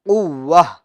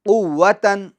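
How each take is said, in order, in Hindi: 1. यह शब्द हल्की h की आवाज़ से खत्म होता है। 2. यह शब्द n की आवाज़ से खत्म होता है। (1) "वक्फ करने में क्या हो जाएगा, कुव्वह" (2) "ये कुव्वतन दो जबर की तनवीन है"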